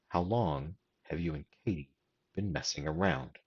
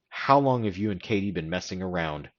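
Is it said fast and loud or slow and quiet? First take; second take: slow and quiet; fast and loud. First: It is said slower and quieter. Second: It is said faster and louder.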